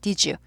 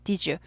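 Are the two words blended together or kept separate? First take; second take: blended; blended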